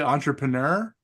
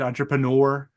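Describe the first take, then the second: First: The word ends with an 'er' sound. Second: The word ends with an 'oor' sound. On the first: This is how the speaker's own group says it. "we say entrepreneur, like er" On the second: This is how the listeners' group says it. "as you guys say it"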